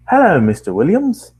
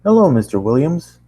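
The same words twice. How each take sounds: First: Desk clerk greeting, pitched high and loud; changed front-desk voice. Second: Lightly voiced desk clerk, higher and louder; front-desk man voice. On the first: Acted. Man at the front desk greets the tenant, put-on higher voice. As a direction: call out the greeting in a higher, swooping voice. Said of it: "I'm gonna try something else". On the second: Man at the front desk greets the tenant, lightly voiced. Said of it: "I'm gonna change his voice a little bit".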